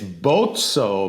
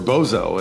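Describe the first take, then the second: First: The middle consonant is a ts sound, like pizza. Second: The middle consonant is a plain z sound. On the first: This is the authentic Italian pronunciation. "the correct pronunciation is with the long O and the two Z's like pizza" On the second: This is how people said the name at school. "growing up, we were Bozo"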